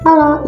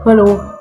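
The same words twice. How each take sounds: First: It is said in a small, thin voice. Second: It is said in a big, heavy voice. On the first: "Contoh suara kecil ada seperti ini" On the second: "Contoh suara besar adalah seperti ini"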